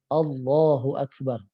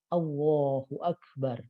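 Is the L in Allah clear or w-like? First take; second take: clear; w-like. First: The L in Allah is a clear l. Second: The L in Allah sounds like a w. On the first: The speaker calls it right. "ujung lidahnya ngangkat karena huruf lam nempel dengan langit-langit" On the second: The speaker calls it wrong. "Allah kayak pakai huruf waw"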